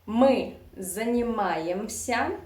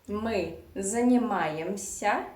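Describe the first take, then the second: The two takes are said the same way.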